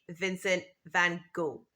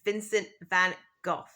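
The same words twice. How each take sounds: First: The name ends on a vowel, last letters silent. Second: The name ends with a rough consonant sound. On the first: "in American English, we say" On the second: "In British English, we say"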